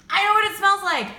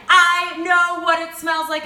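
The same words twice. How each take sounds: First: Higher and louder, eager; you just figured it out; excited realization. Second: Higher, louder and slower, leaning on every word; emphatic excited repeat. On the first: Realizing the candle smells like sun oil, excited. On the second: Repeating her discovery to viewers, louder and slower. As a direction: say it again, bigger, savoring the discovery. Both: Real, not acted. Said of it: "Oh my God, it just hit me".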